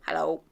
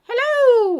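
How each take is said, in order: First: It is said flatly and without energy. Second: It is said brightly and with energy.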